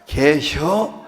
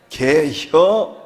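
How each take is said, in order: First: 개혀 said short and quick, Chungcheong style; 충청도 사투리로 빠르게. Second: 개혀 stretched very slowly and louder, Chungcheong style; 충청도 사투리로 길게 늘여서; drawn-out Chungcheong 개혀. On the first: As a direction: snap out 개혀 in two syllables. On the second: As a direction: draw out 개혀 with relish. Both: Shown as a demonstration. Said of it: "충청도는 딱 두 마리로".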